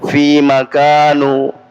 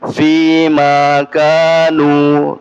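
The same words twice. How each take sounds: First: The vowel in fima is short. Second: The vowel in fima is held long. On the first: The speaker calls it wrong. "Jadi bukan fima kanu ya" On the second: The speaker calls it right. "dibaca dua harokat"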